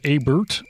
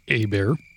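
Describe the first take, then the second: First: The name is pronounced the plain English way. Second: The name is pronounced the French way.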